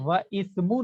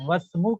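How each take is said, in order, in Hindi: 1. "ismu" का "i" अलग से बोला जाता है। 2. "i" गिरा दिया जाता है, तो एक शब्द बनता है: "wasmu"। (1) "व इस्मु नहीं कहेंगे" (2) "बल्कि वस्मु कहेंगे"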